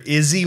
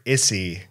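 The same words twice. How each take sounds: First: The middle consonant is a buzzing Z sound. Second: The middle consonant is a hissing S sound. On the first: "like a Z sound" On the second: "with the S sound"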